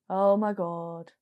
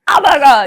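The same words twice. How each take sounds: First: It is said reverently, like a prayer. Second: It is said as a casual exclamation.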